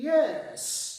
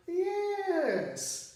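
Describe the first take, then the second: First: Loud yes with a changed tune. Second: Slow, sung yes with a changed tune; drawn-out yes. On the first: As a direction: land the yes with a different intonation. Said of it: "उतार चढ़ाव बदल लूँ तो मायने भी change हो जाएंगे". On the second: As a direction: draw the yes out, singing it. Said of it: "लफ्ज़ को यूँ अदा करूँ". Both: Shown as a demonstration.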